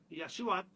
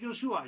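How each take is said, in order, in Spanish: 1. El nombre empieza con sonido Y. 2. El nombre empieza con sonido J. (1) "en hebreo original Yahshua" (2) "tiene la influencia griega"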